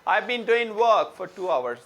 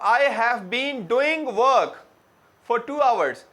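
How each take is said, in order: First: 'I have' is merged into one contracted syllable. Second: 'I have' is said in full as two words. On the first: "वो बोलेंगे आई हैव को मिला के" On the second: "let's suppose मैं कहता हूं"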